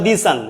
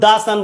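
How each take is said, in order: First: 'The' has a long 'ee' vowel. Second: 'The' has a short 'uh' vowel. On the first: The speaker calls it wrong. "কখনো বলবো না দি সান। যখনই দি সান বলবো তখনই ভুল" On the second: The speaker calls it right. "দা সান বলবো"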